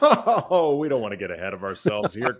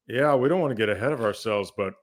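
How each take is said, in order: First: It sounds lighthearted and dismissive, laughing it off. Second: It sounds serious and ominous, hinting at bad news.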